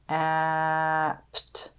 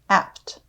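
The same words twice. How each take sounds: First: The word is stretched out slowly, sound by sound. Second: The word is said quickly as one unit. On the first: "Let's tap and stretch this" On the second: "Say it fast"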